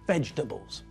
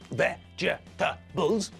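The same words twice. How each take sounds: First: The word is said with only three syllables. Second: The word is said with four full syllables. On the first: "we squash the middle bit together so that when we say it, the word only has three syllables" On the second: "looks like it contains four syllables"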